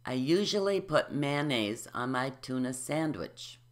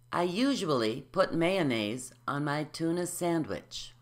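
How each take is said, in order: First: "usually" as yu-zhuh-lee, "mayonnaise" as man-naise; syllables omitted. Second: "usually" as yu-zhu-uh-lee, "mayonnaise" as may-uh-naise; syllables added. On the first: Teacher demonstrating for listeners, syllables omitted. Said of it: "I'll do the same". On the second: Teacher modelling for repetition, every syllable said. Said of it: "add all the syllables". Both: Shown as a demonstration.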